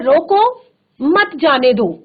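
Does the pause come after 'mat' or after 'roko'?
after roko. There is a pause right after 'roko'. Stop them; do not let them go.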